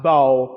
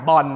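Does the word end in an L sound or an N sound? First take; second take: L sound; N sound. First: The word ends in an L sound. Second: The word ends in an N sound. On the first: The speaker calls it right. "จริงต้องอ่านว่า" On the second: The speaker calls it wrong. "คนไทยรับมาเทียบเสียงกับภาษาไทยลอลิงสะกดแม่กล"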